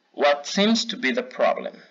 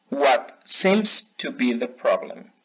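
First: Said in the usual way. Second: Slow, careful repeat for learners to copy; slow repeat model. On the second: Shown as a demonstration. Teacher repeating a phrase for students to echo, slowly. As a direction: draw it out so they can echo you. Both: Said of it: "van a repetir después de mí".

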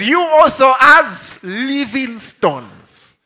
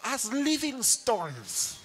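First: Slow and loud "You also as living stones"; loud, slow "as living stones" played for the pun; emphatic pun reading. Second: Laughing pun. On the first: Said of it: "So it says". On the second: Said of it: "some are getting it now". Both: Shown as a demonstration.

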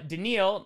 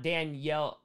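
First: Daniel said slowly as "duh-NEEL"; correct pronunciation. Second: Danielle said slowly as "dan-YELL"; wrong pronunciation. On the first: Streamer teaching a player's name, Daniel as "duh-NEEL". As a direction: say Daniel with a long "ee", stressed at the end. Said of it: "It's pronounced". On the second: Streamer showing the mistaken name, Danielle as "dan-YELL". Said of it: "not Danielle". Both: Shown as a demonstration.

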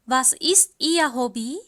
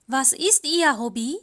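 Both takes have the same delivery.

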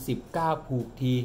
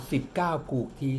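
Both takes have the same delivery.

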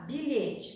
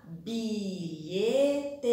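First: Said in the usual way. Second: "Bilhete" drawn out as bi-lhe-te; syllable by syllable. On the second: Shown as a demonstration. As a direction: give "Bilhete" three long, separate beats. ("Bilhete" separado em bi-lhe-te) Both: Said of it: "Vamos separar oralmente".

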